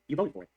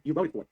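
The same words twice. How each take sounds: First: VOTED leaned on, falling firmly; repeated for emphasis. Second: VOTED stressed again, steady level; repeated for emphasis. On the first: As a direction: say "You voted for it" with weight on voted. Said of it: "Let me say that again". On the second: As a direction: hammer "voted" once more. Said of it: "Third time". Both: Shown as a demonstration.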